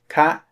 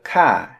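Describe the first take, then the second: First: The word has a short high tone. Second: The word has a short falling tone. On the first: It ends a question. "you need to do a short high tone" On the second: It ends a statement. "a short falling tone"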